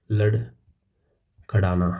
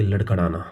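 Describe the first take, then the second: First: लड़खड़ाना stretched out slowly, each syllable dragged; drawn out. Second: Said in the usual way. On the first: Shown as a demonstration. Teacher acting out the meaning of stagger, slow and stretched. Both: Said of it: "stagger का मतलब होता है भाई लड़खड़ाना".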